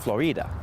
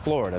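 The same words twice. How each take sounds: First: The stress is on the second syllable. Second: The stress is on the first syllable. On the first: It is the original Spanish pronunciation. "he would have pronounced it Florida ... in Spanish, when a word ends in a vowel, you emphasize the vowel before that" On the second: It is the usual English pronunciation. "not Florida"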